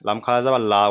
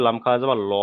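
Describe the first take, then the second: First: Final "লা" as an open, light "laa"; thin light L. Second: Final "ল" as a rounded, full "lo"; thick heavy L. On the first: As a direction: spell it ending on a thin "লা", "laa". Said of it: "যদি এটা বারিকের ক্ষেত্রে হয়". ("লা" বারিক করে, পাতলা উচ্চারণে) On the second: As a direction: spell it ending on a heavy "ল", "lo". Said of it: "পুরের ক্ষেত্রে". ("ল" পুর করে, মোটা উচ্চারণে) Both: Shown as a demonstration.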